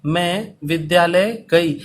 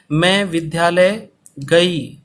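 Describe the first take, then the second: First: Slow, with विद्यालय leaned on; second slow dictation take; slow dictation repeat. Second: Slow, with मैं leaned on; first slow dictation take. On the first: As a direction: repeat it slowly, lean on विद्यालय. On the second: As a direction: dictate slowly, lean on मैं. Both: Shown as a demonstration. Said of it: "धीरे धीरे बोल रहा हूँ".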